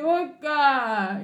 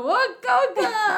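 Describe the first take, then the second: First: Lightly voiced drawn-out chant call; fan's opening call. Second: Chanted, much higher, loud answering call; chanted response. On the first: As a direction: give a mild call for others to answer. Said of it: "Cuando uno dice". (llamado de hincha, suave imitación) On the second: Retold or imitated. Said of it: "yo digo". (chanted, respuesta coreada, aguda y fuerte)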